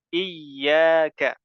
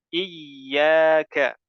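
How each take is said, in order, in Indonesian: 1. Bunyi y ditahan lama dan dobel. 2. Bunyi y ditahan lama dan dobel.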